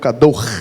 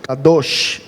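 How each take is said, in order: First: The word ends with a rough throat sound. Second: The word ends with a hissing sh sound.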